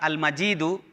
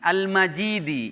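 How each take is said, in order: First: The word ends with a 'u' vowel. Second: The word ends with an 'i' vowel. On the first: It describes God, the owner of the throne. "Ar-raf'u dengan dibaca al-majidu" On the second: It describes the throne itself. "kalau dibaca majrur"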